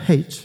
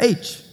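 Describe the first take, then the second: First: The letter is said the Australian way. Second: The letter is said in the speaker's usual way.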